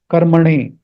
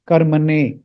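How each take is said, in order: First: Slow karmane with the tongue curled back for the N; retroflex N. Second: Slow karmane with a dental N. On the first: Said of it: "retroflex N". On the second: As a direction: put the N of karmane on the teeth. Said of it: "not the dental sound of the N". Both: Shown as a demonstration.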